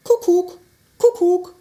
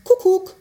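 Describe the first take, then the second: First: Kukuk sung out high and loud, falling; cheerful cuckoo call from a clock; cuckoo call imitation. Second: Said in the usual way. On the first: Shown as a demonstration. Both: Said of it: "se ääni on kukuk".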